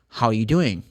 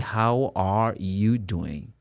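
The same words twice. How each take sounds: First: The word are is dropped. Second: The word are is clearly pronounced. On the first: The speaker calls it right. "they drop the R. They don't say, how are. They say" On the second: The speaker calls it wrong. "But they do not say"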